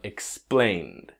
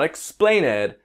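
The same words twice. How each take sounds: First: The ending is joined with no extra syllable. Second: The ending is said as an extra syllable. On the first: The speaker calls it right. "that E in explained past is silent" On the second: The speaker calls it wrong. "Not explained"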